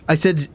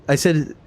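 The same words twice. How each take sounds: The two takes are said the same way.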